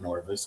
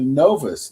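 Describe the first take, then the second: First: The first syllable has an r sound. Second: The first syllable has no r sound. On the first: The speaker calls it wrong. "not Norvis. I'm pronouncing it wrong" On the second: The speaker calls it right. "the Novus"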